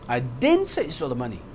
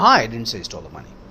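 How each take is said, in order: First: The stress falls on the word didn't. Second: The stress falls on the word I. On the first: It was never said at all. "इसका मकसद है मैंने कहा ही नहीं।" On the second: Someone else said it. "Someone else said it"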